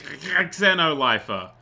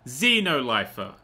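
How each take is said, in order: First: "Xenolifer" slowly as ex-seno-lifer; "Xenolifer" starting with a clear eks sound; corrected pronunciation. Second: "Xenolifer" said slowly as zee-no-lifer; "Xenolifer" with a Z sound, drawn out; first try at the word. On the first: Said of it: "it's not Z, that's an X". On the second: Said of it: "What's this one?". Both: Shown as a demonstration.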